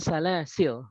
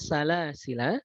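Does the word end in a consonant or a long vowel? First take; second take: consonant; long vowel. First: The word ends sharply on a consonant. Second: The word ends with a drawn-out vowel. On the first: The final letter is left unread. "tidak dipanjangkan" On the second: The final letter is kept and read. "dengan isbat"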